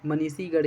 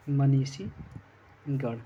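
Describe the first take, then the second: First: Said in the usual way. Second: मनीषीगढ़ drawn out very slowly in separate parts; slow dictation. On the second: Shown as a demonstration. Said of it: "यह लिखा जाएगा आपका".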